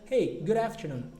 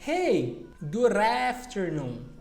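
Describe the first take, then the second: First: It is said at normal speed with linking. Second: It is said very slowly with no linking. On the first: The speaker calls it right. "Normalmente você falaria" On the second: The speaker calls it wrong. "Se você for falar bem devagar, não faz sentido"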